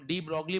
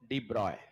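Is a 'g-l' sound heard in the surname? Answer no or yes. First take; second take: yes; no. First: The surname is said with a g-l sound. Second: The surname is said without a g-l sound. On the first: The speaker calls it wrong. "हमने ninth tenth में सुना तो हम डी ब्रोगली बोलने लग गए" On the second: The speaker calls it right. "सही इनका उच्चारण है"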